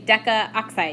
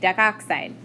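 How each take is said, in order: First: The a sound is kept before oxide. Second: The a sound is dropped before oxide. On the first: The speaker calls it wrong. "you don't say decaoxide" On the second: The speaker calls it right. "you say decoxide"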